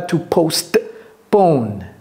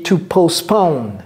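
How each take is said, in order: First: The T in postpone is clearly pronounced. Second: The T in postpone is silent. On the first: The speaker calls it wrong. "ce n'est pas" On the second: The speaker calls it right. "je n'ai pas prononcé le T. J'ai dit"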